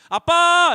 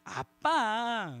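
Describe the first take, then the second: First: It sounds like a plain call for attention. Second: It sounds sweet and coaxing, asking a favor.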